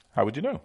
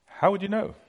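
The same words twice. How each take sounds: First: Said in the usual way. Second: High rising question. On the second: Shown as a demonstration. Preacher asking the crowd, high rise.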